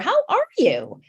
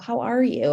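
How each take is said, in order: First: The tone sounds warm and delighted. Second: The tone sounds worried and concerned. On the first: The speaker is glad to see someone after a long time. "I haven't seen them in so long" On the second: The speaker is worried about the student. "Are you concerned, you know, for the student"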